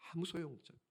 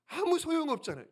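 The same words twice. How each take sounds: First: Soft aside. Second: Said in the usual way. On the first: Real, not acted. Preacher repeats line.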